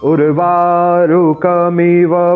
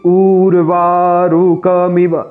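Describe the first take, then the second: First: The first vowel is short and quick. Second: The first vowel is drawn out long. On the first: The speaker calls it right. "यहाँ ऊ छोटा है और इसका उच्चारण हमें जल्दी करना है।" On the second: The speaker calls it wrong. "बाकी लोग क्या कहते हैं कि ऊर्वारुकमिव, ऐसा नहीं है यहाँ पर।"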